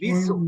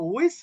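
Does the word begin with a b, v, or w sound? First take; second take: b sound; w sound. First: The word begins with a b sound. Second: The word begins with a w sound. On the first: The speaker calls it wrong. "কেউ বলে বিসু" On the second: The speaker calls it right. "আসলে বিসুও না ভিসুও না"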